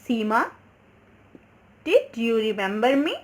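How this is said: A short pause follows the name.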